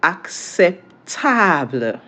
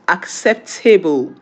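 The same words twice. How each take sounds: First: "acceptable" broken up slowly the French way; French pronunciation. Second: "acceptable" said slowly the English way, ending "tay-bull"; English pronunciation. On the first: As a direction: draw out French "accep-TAH-bluh". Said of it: "How is it pronounced in French?". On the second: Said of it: "in English". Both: Shown as a demonstration.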